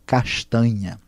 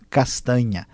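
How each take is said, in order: First: It is said with a Rio accent. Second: It is said with a São Paulo accent. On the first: "alguém do Rio fala" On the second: "alguém de São Paulo, de alguns estados do sul, falam"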